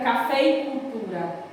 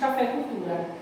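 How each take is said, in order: First: The linking vowel before cultura is clearly pronounced. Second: Spoken fast, the linking vowel is dropped. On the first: "Fica café e cultura" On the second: "quando a gente fala rápido"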